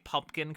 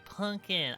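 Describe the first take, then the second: First: The word is pronounced in the standard adult way. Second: The word is pronounced like a small child's version. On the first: The speaker calls it right. "they don't say pumpkin correctly" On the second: The speaker calls it wrong. "they say pumpkin"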